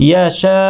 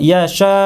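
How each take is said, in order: Both takes have the same delivery.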